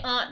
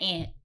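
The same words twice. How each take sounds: First: It is said 'ahnt', East Coast style. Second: It is said like the insect 'ant'.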